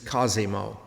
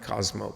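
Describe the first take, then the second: First: The name is said with three syllables. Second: The name is said with two syllables. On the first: The speaker calls it right. "the correct pronunciation is Cosimo" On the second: The speaker calls it wrong. "not Cosmo"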